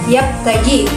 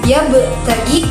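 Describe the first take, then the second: First: The b is cut off without a bounce. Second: The b is released with a light bounce. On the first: The speaker calls it wrong. "tidak boleh dibaca yap tagi" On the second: The speaker calls it right. "karena ya betagi adalah eh, qalqalah sughra"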